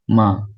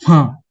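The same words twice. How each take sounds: First: The pitch stays high and level throughout. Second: The pitch falls sharply from high to low. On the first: "secara konsisten dari awal hingga akhir kata" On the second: "Nada keempat itu nada jatuh"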